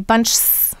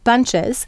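First: The plural ending is added without an extra syllable. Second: The plural ending is added with an extra syllable. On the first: The speaker calls it wrong. "we couldn't really say bunchs. That would be very difficult" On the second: The speaker calls it right. "so we add the eh in there"

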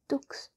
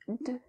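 First: The word ends with a ks sound. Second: The word ends with a vowel. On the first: The speaker calls it wrong. "I heard the mistake you made just there, and it's not pronounced dux" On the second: The speaker calls it right. "It's de"

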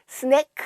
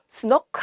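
First: The vowel is a short plain 'e' sound. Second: The vowel is an 'o' sound. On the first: "스네크 아니죠" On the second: "스노크 아니죠"

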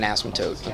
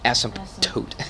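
First: It is said fast, with the P dropped. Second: The P is pronounced, with a slight pause. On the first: "if you just say it fast" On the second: "you properly say it asymptote with the P in there"

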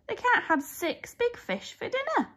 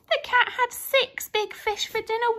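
First: It is read with lively, expressive intonation. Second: It is read flatly, word by word.

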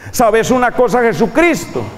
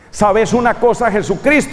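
First: It is said in a Paisa Colombian accent. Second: It is said in a neutral Spanish accent.

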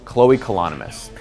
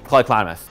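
First: It is said at a normal pace. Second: It is said fast, words blending together.

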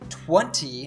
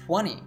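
First: The T sound after N is clearly pronounced. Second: The T sound after N is dropped. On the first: "instead of saying 20" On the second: "natives usually say 20"

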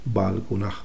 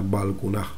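No difference in how they are said.

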